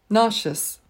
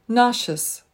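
The two takes are said the same way.

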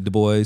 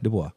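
First: The name is said with English sounds. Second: The name is said with French sounds. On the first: "like you say" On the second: "I lean towards the French pronunciation"

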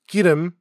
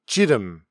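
First: It is said in Standard Korean with G. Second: It is said in Gyeongsang dialect with J.

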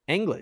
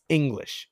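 First: The first vowel sounds like 'ang'. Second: The first vowel sounds like 'ing'. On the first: "I pronounce English Anglish" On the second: "Jack, it's English"

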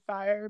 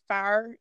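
First: The word is said in a standard accent. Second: The word is said in a Pittsburgh accent. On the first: This is the usual way to say it. "instead of fire" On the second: This is how the dad says it. "he definitely says, like, fire"

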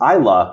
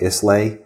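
First: The s sound is silent in the name. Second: The s sound is pronounced in the name. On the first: The speaker calls it right. "it's just Isla" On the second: The speaker calls it wrong. "they want to say Islay"

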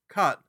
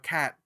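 First: The vowel sounds like the one in 'cut'. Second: The vowel sounds like the one in 'cat'. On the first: "And they were like, what, a cut?" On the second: "I started off with a British accent"

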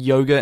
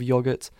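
First: The word is pronounced the American way. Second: The word is pronounced the British way. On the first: "I do have, like, an Americanized accent" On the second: "instead of"

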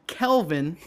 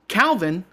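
First: The first vowel is an 'e' sound. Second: The first vowel is an 'a' sound. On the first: "they pronounce it Kelvin" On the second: "His name is Calvin"

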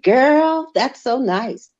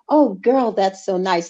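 First: It is said in a put-on slangy voice. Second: It is said in her own plain voice.

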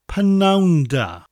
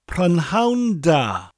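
First: The first word is shortened, like 'p-noun'. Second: The first word is said in full.

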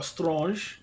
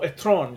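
First: An s sound is heard before the t. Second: No s sound is heard before the t. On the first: The speaker calls it wrong. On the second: The speaker calls it right.

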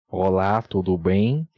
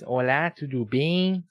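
First: It is said in a deep, heavy voice. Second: It is said in a thinner, higher voice.

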